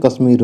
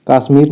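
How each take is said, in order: First: कश्मीर with short a, "kasmeer"; correct form. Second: कश्मीर with long aa, "kaasmeer"; wrong form. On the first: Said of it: "कश्मीर नहीं होता है". (कश्मीर का पहला अ छोटा) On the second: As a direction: lengthen the first vowel of कश्मीर, pitch lifted. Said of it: "कश्मीर होता है". (कश्मीर को काश्मीर जैसा बोलें) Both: Shown as a demonstration.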